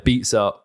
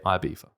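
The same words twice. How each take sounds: First: It is said the American way, with a z sound. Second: It is said the British way. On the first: "Ibiza is the American pronunciation" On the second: "and then we say Ibiza"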